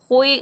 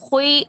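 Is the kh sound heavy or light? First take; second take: heavy; heavy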